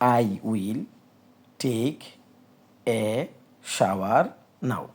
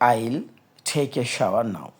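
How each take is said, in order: First: It starts with a full, separate 'I will'. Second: It starts with a contracted, linked 'I'll'. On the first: "এটার ইংরেজি হলো" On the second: "বিদেশিরা এই আই উইল take a shower নাওকে কীভাবে বলবে?"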